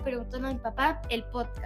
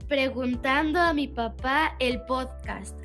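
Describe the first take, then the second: First: The phrase is said at a normal, quicker pace. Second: The phrase is said more slowly and deliberately.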